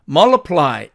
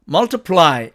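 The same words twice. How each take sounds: First: The t sound is dropped. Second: The t sound is clearly pronounced.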